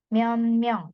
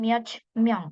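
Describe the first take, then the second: First: The first word ends in an n sound. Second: The first word ends in a t sound. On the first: The speaker calls it right. "jadi dibacanya myeon myeong" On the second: The speaker calls it wrong. "bukan miot myeong"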